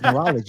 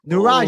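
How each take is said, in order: First: The name is said with an L sound. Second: The name is said without an L sound. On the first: The speaker calls it wrong. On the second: The speaker calls it right.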